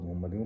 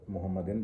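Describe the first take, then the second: First: मोहम्मदियों ending in a nasal "-diyũ"; "-diyun" ending. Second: मोहम्मदिन ending in a short "-din". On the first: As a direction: say मोहम्मदियों with a rounded "u" at the end. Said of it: "इसमें पेश जो है मोहम्मदिन, मोहम्मदियों". (मोहम्मदियों के अंत में पेश वाली "यूँ" की आवाज़) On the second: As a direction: say मोहम्मदिन with a closing n, no "u" sound. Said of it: "इसमें पेश जो है मोहम्मदिन". (मोहम्मदिन के अंत में "दिन" की आवाज़) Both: Shown as a demonstration.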